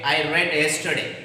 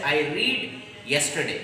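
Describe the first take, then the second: First: The verb has a short vowel, like 'red'. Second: The verb has a long vowel, like 'reed'. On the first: The speaker calls it right. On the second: The speaker calls it wrong. "but don't say I read yesterday"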